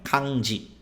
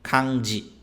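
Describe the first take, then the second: First: The second syllable starts with a 'd' sound. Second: The same.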